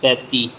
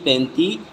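First: The first vowel is plain, not nasalized. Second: The first vowel is nasalized. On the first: "ਇਹ ਸਿੱਧਾ ਬੋਲਾਂਗੇ" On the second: "ਇਸ ਤਰ੍ਹਾਂ ਕੀਤੀ ਹੋਈ ਦੇਖੋ"

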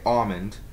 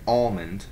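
First: The L sound is silent or weak. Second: The L sound is clearly pronounced. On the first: "Some people might say almond" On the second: "I say almond. Emphasize the L"

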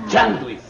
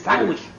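First: The word starts with a 'ch' sound. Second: The word starts with an 's' sound. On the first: The speaker calls it right. "se dice chanduis" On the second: The speaker calls it wrong. "no se dice sándwich"

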